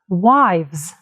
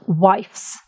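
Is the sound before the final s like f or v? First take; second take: v; f. First: A v sound comes before the final s. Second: An f sound comes before the final s. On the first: The speaker calls it right. "change letter F into V" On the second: The speaker calls it wrong. "not wives"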